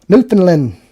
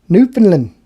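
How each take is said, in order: No difference in how they are said.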